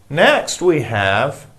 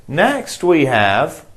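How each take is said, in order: No difference in how they are said.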